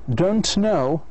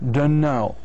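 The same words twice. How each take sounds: First: Both words are said fully and separately. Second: The words are blended into one reduced form.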